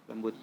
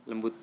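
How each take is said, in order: Both takes have the same delivery.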